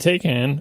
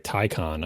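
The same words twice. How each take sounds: First: It is not pronounced like 'Thai-con'. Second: It is pronounced like 'Thai-con'. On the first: The speaker calls it wrong. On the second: The speaker calls it right. "Thai. The second syllable, I'm pretty sure, is con"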